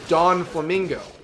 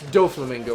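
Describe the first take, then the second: First: It has an n sound: Don Flamingo. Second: It has no n sound: Doflamingo. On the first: The speaker calls it wrong. "oh, he's a Don. He's Don Flamingo" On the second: The speaker calls it right. "But no, it's Doflamingo"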